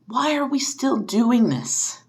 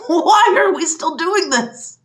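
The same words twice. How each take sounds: First: Said in the usual way. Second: High, loud and slow, with a bitter laugh; exasperated laughing shout. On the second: Real, not acted. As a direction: shout it, half laughing in despair. Repeats, louder, with laugh.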